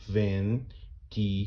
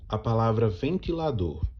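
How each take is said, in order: First: "ventilador" split slowly: ven-ti-la-dor, each syllable apart; syllables spelled out. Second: Said in the usual way. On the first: Shown as a demonstration. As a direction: count out "ventilador" slowly, one beat per syllable. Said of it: "você vai contar comigo". ("ventilador" separado devagar em sílabas: ven-ti-la-dor) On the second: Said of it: "quando eu separo ela em sílabas".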